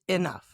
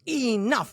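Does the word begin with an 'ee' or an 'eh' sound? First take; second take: eh; ee. First: The first vowel sounds like 'eh'. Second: The first vowel sounds like 'ee'. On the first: "but it's really eh" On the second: "When they're angry, they pronounce that E"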